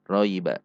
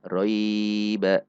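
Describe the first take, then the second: First: The first syllable is kept short. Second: The first syllable is drawn out long. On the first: The speaker calls it right. "Roy-nya dibaca pendek" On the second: The speaker calls it wrong. "Tidak roiba"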